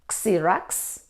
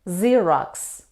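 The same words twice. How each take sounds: First: It begins with the letter name 'ex'. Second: It begins without the letter name 'ex'. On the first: The speaker calls it wrong. "Xerox? No" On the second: The speaker calls it right. "The letter X isn't pronounced in these words"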